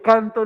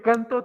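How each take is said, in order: First: The stress is on the first syllable. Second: The stress is on the last syllable. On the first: "Porque es grave y termina en vocal" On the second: "Porque es aguda y termina en vocal"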